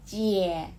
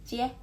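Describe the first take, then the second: First: CIE long and weighted; "Cie" strong and drawn out; heavy full tone. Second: CIE short and light; "cie" brief and unstressed; light neutral tone. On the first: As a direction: stretch CIE with full emphasis. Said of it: "kata pertama itu kalian lebih berat". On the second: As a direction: cut CIE off quickly. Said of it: "itu cepat". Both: Shown as a demonstration.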